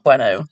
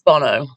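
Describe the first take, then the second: First: The name begins with a 'bway' sound. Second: The name begins with a 'bo' sound. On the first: The speaker calls it wrong. "and it's not Bueno" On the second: The speaker calls it right. "It's [name]"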